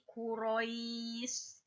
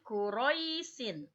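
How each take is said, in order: First: The word ends on a bare s consonant. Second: The word ends with a short -in syllable. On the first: The reading stops at this word. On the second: The reading continues into the next word.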